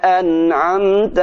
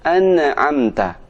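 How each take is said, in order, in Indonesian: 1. Bunyi n ditahan halus tanpa dipantulkan. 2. Bunyi n dipantulkan dengan sentakan. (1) "Yang benar" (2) "Huruf nun tidak boleh dibaca mantul"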